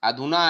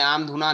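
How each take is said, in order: First: The word starts with a short 'a' sound. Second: The word starts with a separate 'aam' syllable. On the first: The speaker calls it right. "अधुना है" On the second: The speaker calls it wrong. "आम धुना नहीं है।"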